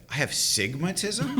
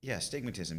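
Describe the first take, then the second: First: "sigmatism" said without the a-, rising like a question; misheard sigmatism. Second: "astigmatism" with the a- said clearly, flat and soft; full astigmatism. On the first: Boy mishears astigmatism, asks back as "sigmatism". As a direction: drop the a- in "sigmatism" and ask it, a little higher. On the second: Doctor tells boy his diagnosis, plainly saying "astigmatism". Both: Retold or imitated.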